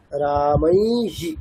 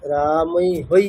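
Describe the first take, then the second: First: Slow "রামৈহি", long "মৈ" then short "হি"; short i ending. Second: Slow "রামৈ হই", ending in an oi glide; wrong echoed diphthong. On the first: Teacher showing the correct form, slow "রামৈহি" with short final হি. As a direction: draw out "মৈ", finish on a quick "হি". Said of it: "এখানে হ্রস্ব ইকার নিতে হবে". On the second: Teacher warning students against this, "রামৈ হই" with echoed diphthong. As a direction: echo the oi as "হই" at the end. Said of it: "এরকম না". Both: Shown as a demonstration.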